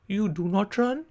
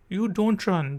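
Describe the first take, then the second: First: Said in the usual way. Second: Don't said short; contracted don't. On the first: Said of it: "do not को short करके हम कहते हैं don't". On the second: Shown as a demonstration. Teacher contrasting full and short. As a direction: clip to don't. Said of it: "हम कहते हैं don't".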